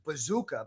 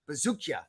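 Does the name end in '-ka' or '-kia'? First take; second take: -ka; -kia. First: The name ends in a plain '-ka' sound. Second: The name ends in a '-kia' sound. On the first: The speaker calls it wrong. "Longo calls him Bazooka" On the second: The speaker calls it right. "but it's actually Bazookia"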